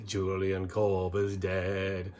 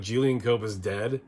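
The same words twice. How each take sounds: First: Slow, drawn-out mock Scottish crooning; thick Scottish accent. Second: Said in the usual way. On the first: Host imitating a goofy song lyric, mock Scottish accent. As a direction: stretch it out in a bad Scottish singing voice. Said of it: "with a thick Scottish accent singing". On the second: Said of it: "like, you can't help but laugh".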